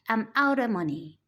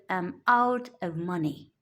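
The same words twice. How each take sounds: First: Out of is blended into one reduced word. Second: Out and of are said as separate full words. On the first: "we say" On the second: "instead of"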